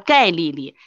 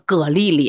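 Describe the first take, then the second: First: The surname is read as gai, like lid. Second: The surname is read as ge. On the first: The speaker calls it wrong. "你不能叫人家盖丽丽" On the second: The speaker calls it right. "要在姓里面就叫葛丽丽啊"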